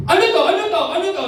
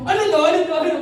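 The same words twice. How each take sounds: First: Loud, high angry bark of a question; angry father shouting. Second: Loud, higher mock of his angry question; imitating angry dad. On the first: Retold or imitated. Father confronting his kids at the table, angry shout. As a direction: demand it like a furious dad. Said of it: "yung tipong galit na galit niya". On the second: Son mimicking his father's outburst, mock angry shout. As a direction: throw his angry words back at him. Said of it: "Ginaya ko siya".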